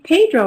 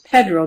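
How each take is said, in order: First: The stressed vowel sounds like the vowel in gray. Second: The stressed vowel sounds like the vowel in red. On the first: "would be gray" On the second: "then it would be red"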